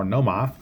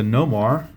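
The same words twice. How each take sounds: First: "Noma" with the r dropped, New England style; rough New England accent. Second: Said in the usual way. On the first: Acted. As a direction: lightly attempt a New England accent, ending "Noma" on an open ah. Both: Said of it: "not very good with the New England accent".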